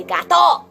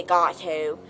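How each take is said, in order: First: "gato" high and loud, crisp final O; Spanish accent. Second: "gato" low-key with English T and O; English pronunciation. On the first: Teacher correcting the class, emphatic accented "gato". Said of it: "We say". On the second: Teacher showing what not to say, unaccented "gato". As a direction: say "gato" with no accent. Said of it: "We don't say". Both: Shown as a demonstration.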